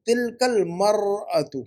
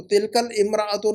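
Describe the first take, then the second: First: मरअतु very slowly, starting "mar", no "i"; corrected form, drawn out. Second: इमराअतु with an initial "im" after tilkal; wrong form example. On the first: Teacher models the correction, very slow तिलकल मरअतु. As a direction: stretch तिलकल मरअतु, linking "kal" into "mar-atu". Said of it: "अलिफ लाम लगाएंगे तो अल मरअतु". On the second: Teacher rejects student's form, इमराअतु said with opening "im". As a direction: say इमराअतु separately, keeping the opening "i". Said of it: "नहीं". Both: Shown as a demonstration.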